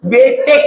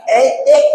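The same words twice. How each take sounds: First: Said in the usual way. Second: Put-on ecek with the b dropped, babyish; cadel baby talk. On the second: Shown as a demonstration. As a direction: say ecek, lisping like a spoiled child. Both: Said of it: "Becek maksudnya".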